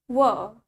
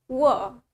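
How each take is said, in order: The two takes are said the same way.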